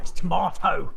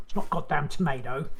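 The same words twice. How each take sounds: First: "tomato" said tuh-MAH-toh, insistent and louder; louder British "tomato", long ah in the middle; corrective British pronunciation. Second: "tomato" said tuh-MAY-doh, with an ay; mock "tomato" the American way, middle rhyming with day; rejected American pronunciation. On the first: Retold or imitated.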